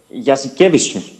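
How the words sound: The name is said with a Lithuanian-style stress pattern. The speaker calls it right. "μπορείς να το πεις έτσι όπως τον λένε?"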